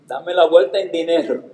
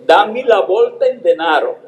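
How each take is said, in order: First: Said in the usual way. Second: "denaro" said the Italian way, a bit higher; Italian-sounding request, "dame la bolta en denaro"; italian pronunciation. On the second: Retold or imitated. ("denaro" a la italiana, pidiendo el cambio) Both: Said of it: "vio que yo entendía el italiano".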